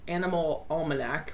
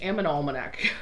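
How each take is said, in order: First: The first word is said with all three syllables. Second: The first word is squeezed into two syllables. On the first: The speaker calls it right. "We know that I have a difficulty saying that correctly" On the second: The speaker calls it wrong. "just say it the way my brain wants to say it"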